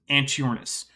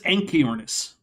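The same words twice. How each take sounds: First: The ch is said as in church. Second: The ch is said as a k sound. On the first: The speaker calls it wrong. "There is no circumstance in which this should be pronounced" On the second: The speaker calls it right. "which usually in English comes out as ki"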